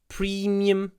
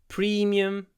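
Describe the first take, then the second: The two takes are said the same way.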